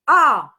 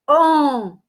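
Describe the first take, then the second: First: The vowel is said with an open sound. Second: The vowel is said through the nose. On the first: "som aberto" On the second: "som totalmente fechado, nasal"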